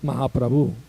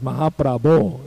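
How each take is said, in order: First: The word ends in a u sound. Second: The word ends in an o sound. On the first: The speaker calls it wrong. "It's not Mahaprabhu" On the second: The speaker calls it right. "It's an O"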